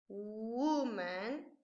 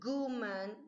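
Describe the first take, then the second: First: The word begins with a W sound. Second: The word begins with a hard G sound. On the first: The speaker calls it right. "es con u" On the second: The speaker calls it wrong. "no se dice guman ni gu, gu, no es con G"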